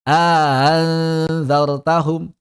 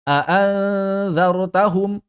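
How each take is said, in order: First: A lengthened vowel precedes a softened second hamza. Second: Both hamzas are full with no lengthening between. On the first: "Ada yang baca idkhal"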